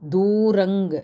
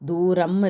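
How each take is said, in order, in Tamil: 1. இந்த சொல் ng ஒலியில் முடிகிறது. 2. இந்த சொல் m ஒலியில் முடிகிறது. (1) "அனுஸ்வரம் வந்து இங்குக்கு மாற்றிங்க" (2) "தூரம் இல்லை"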